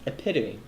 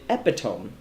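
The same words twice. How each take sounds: First: The word is pronounced unlike its spelling. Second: The word is pronounced the way it is spelled. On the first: The speaker calls it right. "it's actually pronounced epitome" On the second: The speaker calls it wrong. "I pronounced it epitome, how it actually looks"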